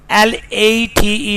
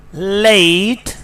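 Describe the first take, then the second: First: "late" with a pure "eh"; Pakistani pronunciation. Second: "late" with a gliding "ay"; British pronunciation. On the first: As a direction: say late as "leht", no glide. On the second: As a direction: say late as "leh-eet". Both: Shown as a demonstration. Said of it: "is not late".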